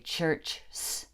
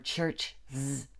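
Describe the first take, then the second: First: The word ends with a bare s sound. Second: The word ends with a bare z sound. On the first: "It just doesn't work to say church s" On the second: "or church z"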